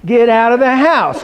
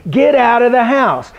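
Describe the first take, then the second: First: "house" carries the weight, falling; stress on house. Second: "get" hit first and hard, slow; slow, punch "get"; stress on get. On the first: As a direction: land on "house" at the end. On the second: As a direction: lean on "get" in "Get out of the house". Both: Shown as a demonstration. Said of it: "the stress is".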